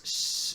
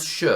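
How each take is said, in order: First: "sh" softened toward s, tongue slightly back; Castilian retracted s. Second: "sh" as a full hushing sound; plain English-like sh. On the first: Teacher showing Spain's s, retracted hissing "sh". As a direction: hiss "sh" unvoiced, halfway between s and sh. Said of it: "la lengua se va un poquitico para atrás". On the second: Teacher showing what it is not, full "sh". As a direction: say "sh" outright, as the sound to avoid. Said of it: "Pero no es sh". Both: Shown as a demonstration.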